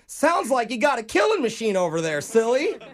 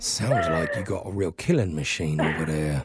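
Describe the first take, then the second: First: It is said in his regular, unthreatening voice. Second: It is said in a menacing, intimidating put-on voice.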